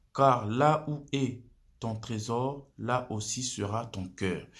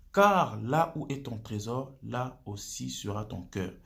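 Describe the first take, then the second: No difference in how they are said.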